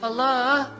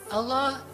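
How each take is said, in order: First: It is said coaxingly with a slight melody. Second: It is said plainly, without melody.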